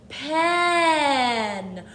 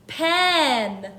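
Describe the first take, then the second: First: Pen drawn out slowly with the eh held long; stretched out. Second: Said in the usual way. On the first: Shown as a demonstration. Teacher stretching Pen so children hear the eh. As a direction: stretch the word Pen so the middle eh is heard. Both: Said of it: "Let's really stretch it".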